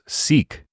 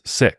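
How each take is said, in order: First: The word is said with a long vowel. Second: The word is said with a short vowel. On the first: The speaker calls it wrong. "I'd always thought it was Sikh" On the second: The speaker calls it right. "but it's sick"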